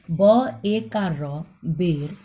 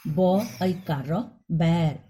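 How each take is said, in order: First: बेर with a short e, slow spelling; बेर, short tight e. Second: बैर with a long open ai; बैर, stretched ai vowel. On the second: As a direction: drag out the ai in बैर. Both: Shown as a demonstration. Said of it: "मात्रा अलग होने पर उच्चारण अलग होता है".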